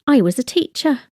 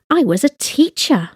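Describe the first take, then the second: First: Said in the usual way. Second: "teacher" picked out as the key word; stress on TEACHER. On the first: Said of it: "No emphasis". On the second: Shown as a demonstration. Language teacher showing past-tense emphasis, stressing "teacher". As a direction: put the weight on "teacher". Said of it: "with an emphasis on teacher".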